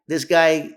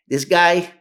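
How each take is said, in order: Both takes have the same delivery.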